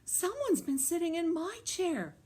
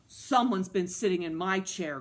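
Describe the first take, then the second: First: It is cried in Mama Bear's voice. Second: It is growled in Papa Bear's voice.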